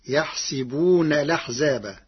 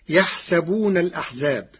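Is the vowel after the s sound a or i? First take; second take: i; a. First: The s sound is followed by i. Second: The s sound is followed by a.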